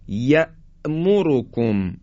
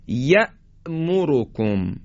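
Both takes have the same delivery.

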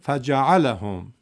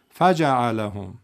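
First: The first syllable fa is not raised. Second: The first syllable fa is raised. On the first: The speaker calls it right. "ف رو نبر بالا، بگیم فجع لهم" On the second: The speaker calls it wrong. "نگیم فجع لهم"

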